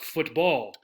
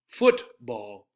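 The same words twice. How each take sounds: First: The stress is on the second syllable. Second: The stress is on the first syllable. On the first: The speaker calls it wrong. "not football" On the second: The speaker calls it right. "We stress the first part"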